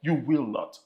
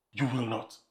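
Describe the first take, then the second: First: Said in the usual way. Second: Low, softer repeat of the command; quiet echo. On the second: Acted. Pastor repeating the command to the congregation, low and soft. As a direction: drop it low and firm.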